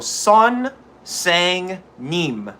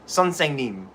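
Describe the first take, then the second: First: The word is said slowly, syllable by syllable. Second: The word is said quickly, syllables run together.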